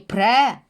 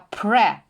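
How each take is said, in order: First: The syllable is said with a wide open mouth. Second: The syllable is said more softly and narrowly. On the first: The speaker calls it wrong. "Тільки не пре, не широкий рот" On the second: The speaker calls it right. "а пре, більш м'ягесенько"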